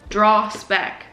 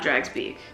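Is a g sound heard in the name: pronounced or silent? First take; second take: silent; pronounced. First: The name is said with no g sound. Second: The name is said with a g sound. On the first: The speaker calls it right. "That's how you pronounce it, G is silent" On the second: The speaker calls it wrong. "definitely not Drags Beak"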